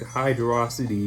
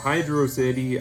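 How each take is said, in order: First: It is said as one joined word. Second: It is said as two separate words. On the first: "it just rolls off the tongue a lot more" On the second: "Hydro City. I mean, that's easy to say"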